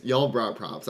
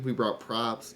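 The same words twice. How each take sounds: First: Y'all leaned on as a correction; emphasize Y'all to hand over the credit; stress on Y'all. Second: Said in the usual way. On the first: Real, not acted. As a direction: put the weight on Y'all, then let the rest fall.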